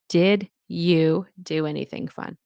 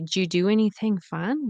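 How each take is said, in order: First: The opening 'did you' is said as two clear words. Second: The opening 'did you' is blurred into one reduced syllable. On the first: "what they're actually saying is" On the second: "You might be confused when you say"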